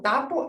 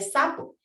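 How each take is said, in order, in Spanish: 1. La primera consonante se pronuncia como t. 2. La primera consonante se pronuncia como s. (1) "lo sustituye por otras de forma incorrecta" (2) "en lugar de sapo"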